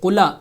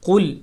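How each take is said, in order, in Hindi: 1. 'l' के बाद एक स्वर जोड़ा जाता है। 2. शब्द एक सादे 'l' की आवाज़ पर खत्म होता है। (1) "इसको कुला नहीं पढ़ेंगे" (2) "लाम साकिन है"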